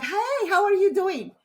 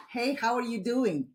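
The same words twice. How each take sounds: First: Open friendly greeting. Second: Said in the usual way. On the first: Shown as a demonstration. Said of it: "imagine if I turn my hands like this". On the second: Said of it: "Can you see the difference?".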